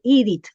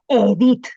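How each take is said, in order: First: The name is pronounced with an English reading. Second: The name is pronounced with a Spanish reading. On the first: This is how English readers would say it. The speaker calls it wrong. "que no me digan Edith" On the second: This is how the name is meant to sound. The speaker calls it right. "que me digan Edith"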